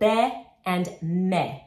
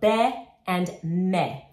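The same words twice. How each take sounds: First: The vowels stay pure and steady. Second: The vowels stay pure and steady.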